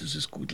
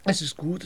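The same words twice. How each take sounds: First: Much softer, trailing off into sleep; fading out. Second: Said in the usual way. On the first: Shown as a demonstration. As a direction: let the words die away sleepily. (schläfrig verklingend, viel leiser)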